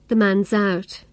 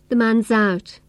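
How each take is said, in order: First: The s sound runs straight into the vowel. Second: The same.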